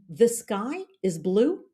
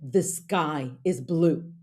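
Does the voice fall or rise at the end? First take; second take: rise; fall. First: The voice rises at the end. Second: The voice drops at the end.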